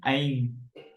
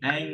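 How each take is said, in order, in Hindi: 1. स्वर एक लंबी 'ai' ध्वनि है। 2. स्वर एक सादा 'e' ध्वनि है। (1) "डबल ए हो गया" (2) "ये एंग नहीं है"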